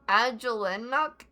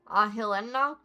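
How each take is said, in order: First: The first consonant is a J sound. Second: The first consonant is an H sound.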